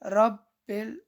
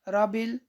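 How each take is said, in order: First: The b sound is doubled and held longer. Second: The b sound is short, said once. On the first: The speaker calls it right. "रब बिल सही है" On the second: The speaker calls it wrong. "रबिल गलत है"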